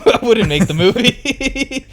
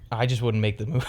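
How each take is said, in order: First: High, slow, cracking up mid-line; squeaky giggling retake; laughing through it. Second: Said in the usual way. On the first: Real, not acted. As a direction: say it again while breaking into laughter. Restarts same line laughing, pitched up.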